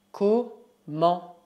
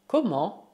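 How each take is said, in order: First: "Comment" split into two slow syllables. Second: Said in the usual way. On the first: Shown as a demonstration. Teacher models new word, syllable by syllable. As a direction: break "Comment" in half with a pause.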